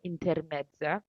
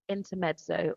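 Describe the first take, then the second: First: It is said with an Italian pronunciation. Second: It is said with an English pronunciation.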